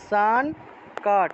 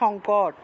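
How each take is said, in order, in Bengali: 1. শব্দটি সংস্কৃত রীতিতে উচ্চারিত হয়। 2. শব্দটি বাংলা রীতিতে উচ্চারিত হয়। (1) "কিন্তু সংস্কৃত উচ্চারণটা হবে সানকাট" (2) "বাংলায় বললে সংকট"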